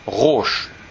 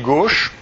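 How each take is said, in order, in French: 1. Le nom commence par un R guttural. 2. Le nom commence par un G dur. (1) "Là-bas, ça se prononce roche" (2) "ça ne se prononce pas comme ça"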